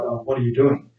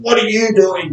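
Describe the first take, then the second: First: It sounds calm and friendly. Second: It sounds angry and confrontational.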